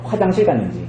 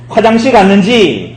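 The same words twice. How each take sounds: First: Said in the usual way. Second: Slow, raised taunt on 화장실 갔는지; mocking. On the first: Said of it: "이 나갔는지가 뭐냐면요". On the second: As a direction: imitate a jeer, stretching 화장실 갔는지. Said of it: "엘리야가 조롱하는 거예요".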